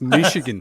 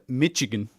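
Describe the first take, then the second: First: The middle consonant is a soft 'sh' sound. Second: The middle consonant is a 'tch' sound. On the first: This is how locals say it. The speaker calls it right. "there's no T in there. It's Michigan" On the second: This is how Irish people say it. The speaker calls it wrong. "Irish people call it Michigan"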